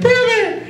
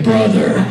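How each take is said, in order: First: It is said in a high, boyish voice. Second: It is said in a deep, adult voice. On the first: This is how the actor sounded as a young boy. "back then he was like" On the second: This is how the actor sounds as an adult. "now he's like"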